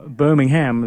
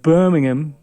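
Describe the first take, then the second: First: It is said with an American pronunciation. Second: It is said with a British pronunciation. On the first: This is the listener's local way of saying it. "as you would say" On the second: This is the speaker's own familiar way of saying it. "Birmingham to me because uh, that's the town. That's the city that I know in the U K"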